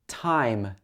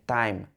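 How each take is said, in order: First: The word starts with a voiceless t sound. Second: The word starts with a voiced, d-like sound. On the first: The speaker calls it right. "It should be t, time" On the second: The speaker calls it wrong. "some people would say time"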